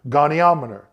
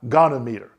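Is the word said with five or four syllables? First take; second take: five; four. First: It is said with five syllables, go-ni-om-e-ter. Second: It is said with four syllables, go-nom-e-ter. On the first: The speaker calls it right. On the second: The speaker calls it wrong. "not gonometer"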